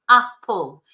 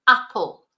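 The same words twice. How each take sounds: The two takes are said the same way.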